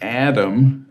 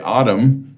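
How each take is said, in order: First: The first vowel is bright and sharp. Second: The first vowel is dark and rounded. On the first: "that's a sharper A" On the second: "you don't necessarily want to say autumn"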